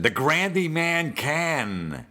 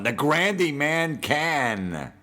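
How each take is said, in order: First: High, slow, drawn-out home run call; milk it like a corny radio announcer; mock Sterling call, higher and slow; announcer catchphrase. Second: High, slow, drawn-out home run call; mock radio home run call; announcer catchphrase. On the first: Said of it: "What about the, uh, Curtis Granderson?". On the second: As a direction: stretch each word like a corny broadcaster. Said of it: "Whenever he hits a home run".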